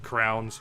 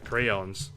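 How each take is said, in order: First: The word is squeezed into one syllable. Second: The word is said with two full syllables.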